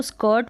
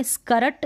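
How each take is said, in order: First: "स्कर्ट" as one syllable, "skuht"; half-r pronunciation. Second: "स्कर्ट" as "ska-rat", r fully sounded; full-r mispronunciation. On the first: Teacher modelling the correct reading, "स्कर्ट" with half r. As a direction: say "स्कर्ट" with the r barely there. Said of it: "र का sound half". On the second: Teacher warning learners off it, "स्कर्ट" with full r. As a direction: break "स्कर्ट" open with a full r. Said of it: "स्कर्ट नहीं पढ़ेंगे हम". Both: Shown as a demonstration.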